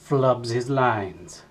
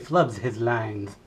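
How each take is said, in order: First: The s sounds are said plainly. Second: The s sounds are said with a lisp.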